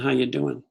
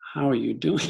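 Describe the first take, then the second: First: It is a quick, casual throwaway greeting. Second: It is asked slowly with sincere, deliberate interest.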